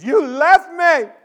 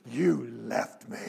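First: High, loud, drawn-out wail; wailing child's accusation. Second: Low, slow, drawn-out accusation; hurt child. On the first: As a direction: cry it out at full volume like a hurt kid. Child repeats accusation, louder. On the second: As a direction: whimper it slowly like a wounded little boy. Sobbing child accuses father, first time. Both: Retold or imitated.

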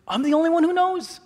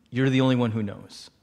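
First: Very high comic disbelief; hammed-up shocked question; incredulous. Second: Low, sincere confession; understated, lower-pitched plea; earnest confiding. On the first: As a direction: echo it back in squeaky astonishment. Teller reacts incredulously to secret. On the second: Retold or imitated. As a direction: imitate a friend entrusting a secret. Friend confides a secret earnestly.

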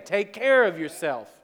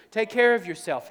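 First: "care" stretched and hit; stress on care. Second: "care" punched high and loud; stress on care. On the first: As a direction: lean on "care" with a falling close. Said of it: "God says the same thing to you". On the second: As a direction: hammer "care", higher and louder. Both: Shown as a demonstration.

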